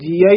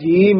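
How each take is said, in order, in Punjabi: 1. ਸ਼ਬਦ ਲੰਮੀ ਆ ਧੁਨੀ ਨਾਲ ਖ਼ਤਮ ਹੁੰਦਾ ਹੈ। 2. ਸ਼ਬਦ ਬਿਨਾਂ ਲਗ ਵਾਲੀ ਇ ਧੁਨੀ ਨਾਲ ਖ਼ਤਮ ਹੁੰਦਾ ਹੈ। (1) "ਕਈ ਜੀਆ ਹੀ ਬੋਲ ਜਾਂਦੇ ਹਨ, ਐੜੇ ਕੰਨਾਂ ਲਾ ਦਿੰਦੇ ਹਨ" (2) "ਜਾਂ ਜੀ ਬੋਲ ਜਾਂਦੇ ਹਨ, ਐੜਾ ਛੱਡ ਹੀ ਜਾਂਦੇ ਹਨ"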